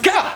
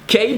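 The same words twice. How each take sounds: First: The letter ends in an 'ah' vowel. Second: The letter ends in an 'ay' vowel. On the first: "replace it with A" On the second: "You remove the A part"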